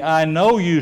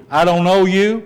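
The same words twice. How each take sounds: First: Calm and even, falling gently; the door opening to you; mild accepting voice; welcoming Jesus. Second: A touch higher and louder, rising at the end; the door closing on you; mild rejecting judge; rejecting Jesus. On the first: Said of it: "or are you on the". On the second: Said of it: "Which are you on the". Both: Shown as a demonstration.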